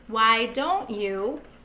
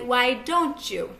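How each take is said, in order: First: The words are said separately, without blending. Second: The words blend into a 'chew' sound.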